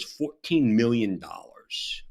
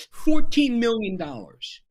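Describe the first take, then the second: First: Said in the usual way. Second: "Fourteen million dollars" repeated much higher and louder; emphatic repeat. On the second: Real, not acted. Podcast guest repeats a victim's loss for impact, emphatic "Fourteen million dollars". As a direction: hammer home "Fourteen million dollars", high and loud.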